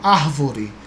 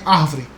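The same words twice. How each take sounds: First: The word is said in full with three syllables. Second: The word is shortened to two syllables. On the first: This is the careful form people avoid in relaxed speech. "as pessoas não falam árvore" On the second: This is the easier form people use in relaxed speech. "é árvore"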